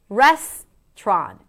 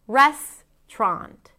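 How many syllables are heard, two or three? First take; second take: two; two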